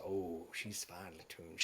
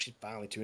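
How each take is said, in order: First: Soft, slow, low appreciative murmur; admiring murmur. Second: Said in the usual way. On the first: Acted. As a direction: savour the sound of a fine instrument. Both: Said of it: "And he goes".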